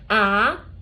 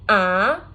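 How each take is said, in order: No difference in how they are said.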